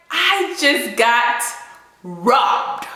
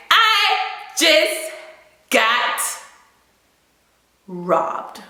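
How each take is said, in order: First: Said in the usual way. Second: I, just, got, robbed each set apart by pauses; word by word emphasis. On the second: Shown as a demonstration. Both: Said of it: "Not scam. Forget scam".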